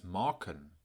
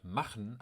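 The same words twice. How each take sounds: First: "morken" with k in place of ch; Low German k. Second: Said in the usual way. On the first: Shown as a demonstration. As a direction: say "morken", the northern form of machen. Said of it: "Weiter nördlich im Plattdeutschen verändert sich". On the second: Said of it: "wir hören im Norden das".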